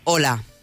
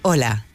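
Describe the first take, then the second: First: It sounds strong, tense and authoritative. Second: It sounds calm, confident and assertive.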